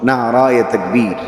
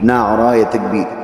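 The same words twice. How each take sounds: Both takes have the same delivery.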